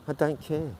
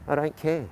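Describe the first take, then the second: No difference in how they are said.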